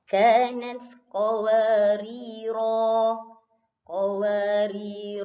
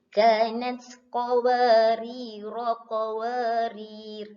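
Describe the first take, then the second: First: It stops with a long final vowel. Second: It runs on with a short final vowel. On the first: The reader stops here. "kalau Ustazah waqaf, Ustazah berhenti di sini, uh, jadi panjang dua harkat" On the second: The reading continues without stopping. "Ustazah sambung pendek. Ro-nya satu harkat"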